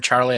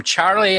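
First: Said in the usual way. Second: Charlie pitched up, imitating the way Lost says it. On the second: Co-host naming a reviewer while rewatching Lost, Charlie mimicked from the show. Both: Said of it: "I have to say it like that".

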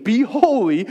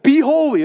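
First: Said in the usual way. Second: "Be holy." called out higher and louder with a hard push on "Be"; emphatic exhortation. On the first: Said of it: "I think of First Peter one fifteen". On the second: Shown as a demonstration. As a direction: punch "Be" like a command.

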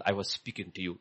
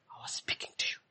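First: Said in the usual way. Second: Unvoiced whisper. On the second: God whispering to Elijah, unvoiced. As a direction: breathe the words, no voice.

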